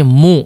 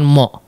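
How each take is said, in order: First: The vowel is a full, rounded u sound. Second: The vowel is a more open o sound. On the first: The speaker calls it right. "di sini mu" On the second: The speaker calls it wrong. "bukan mo"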